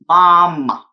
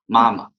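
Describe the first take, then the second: First: The vowel is exaggerated with a very wide-open mouth. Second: The vowel is relaxed with a normal mouth opening. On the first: The speaker calls it wrong. "we will not pronounce this word like ... or 妈妈" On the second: The speaker calls it right. "we just pronounce like"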